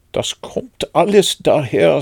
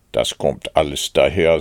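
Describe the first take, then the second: First: Higher, louder irritated complaint; annoyed. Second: Low, strict reproof; stern. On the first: Stuck Pooh blames the small front door, annoyed. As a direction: protest crossly, pitched up. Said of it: "sagte Puh verärgert". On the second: Rabbit lectures stuck Pooh on overeating, stern. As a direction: lay down the cause severely, pitched down. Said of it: "sagte Kaninchen streng". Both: A narrator's reading.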